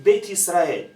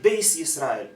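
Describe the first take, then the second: First: The first word ends with a t sound. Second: The first word ends with an s sound. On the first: This is the speaker's own community's pronunciation. "we say"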